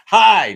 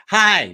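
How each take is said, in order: First: HI pitched far too high and very loud; loud, high-pitched test greeting. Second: HI squeaked high and loud, as if just kicked; second try at hello, still comically high; loud, pained-sounding high hello; kicked-in-the-nuts greeting. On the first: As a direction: overshoot a first on-camera hello, high and booming. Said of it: "No, that's too high". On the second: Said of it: "sound like I got kicked in the, in the nuts". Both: Shown as a demonstration.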